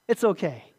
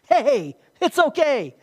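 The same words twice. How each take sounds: First: Gentle reassurance. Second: Slow, loud and high, reassuring hard; emphatic reassurance. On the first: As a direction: say it again gently, let it settle. Repeated reassurance, softer. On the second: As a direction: reassure him firmly and drawn out, hey it's okay. Jesus reassuring Peter, voiced. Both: Acted.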